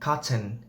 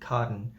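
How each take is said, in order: First: British accent, with the middle T pronounced. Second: American accent, with the middle T cut. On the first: "is from the British accent" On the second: "We cut the T"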